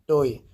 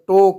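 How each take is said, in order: First: The word ends with an added 'ee' vowel. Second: The word ends on a plain 'o' vowel. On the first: This is how Indians and Biharis say it. "हम लोग भाई Indian हैं और बिहारी हैं" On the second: This follows English pronunciation with a silent final e. "English के pronunciation के अनुसार चलोगे तो टो कहा जाता है"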